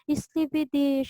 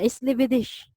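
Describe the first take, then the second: First: It sounds soft and super sweet. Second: It sounds harsh, like shouting.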